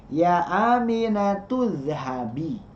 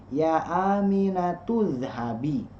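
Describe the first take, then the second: Both takes have the same delivery.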